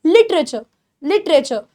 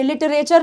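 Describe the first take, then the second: First: "लिटरेचर" as LIT-re-cha, last r swallowed; correct pronunciation. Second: "लिटरेचर" as li-ta-RE-char, r sounded; wrong pronunciation. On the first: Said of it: "last के आर को खा जाना है". ("लिटरेचर" सही ढंग से, आख़िरी र खाकर) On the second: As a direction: say "लिटरेचर" in four syllables with the final r pronounced. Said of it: "नहीं होता". ("लिटरेचर" ग़लत ढंग से, लि-ट-रे-चर) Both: Shown as a demonstration.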